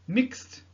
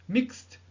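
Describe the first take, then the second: No difference in how they are said.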